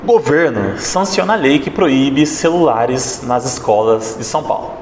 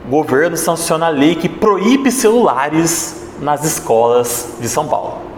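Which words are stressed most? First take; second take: governo; proíbe celulares. First: The emphasis falls on the word governo. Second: The emphasis falls on proíbe celulares. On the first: The government is the protagonist or villain. "eu vou dar uma ênfase aqui na palavra governo" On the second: The phones are the protagonist. "Quando eu dei ênfase na palavra proíbe celulares"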